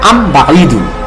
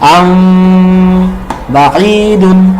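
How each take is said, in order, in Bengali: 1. 'ম'-টা পুরোপুরি বন্ধ করে, ছোট করে বলা হয়। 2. 'ম'-টা নরম করে, ঠোঁট প্রায় না মিলিয়ে, দীর্ঘ করে বলা হয়। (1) "আমরা স্বাভাবিকভাবে এটা বলতাম" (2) "ঠোঁটটা হান্ড্রেড পার্সেন্ট না লাগিয়ে আমরা হালকা ফাঁকা রাখবো"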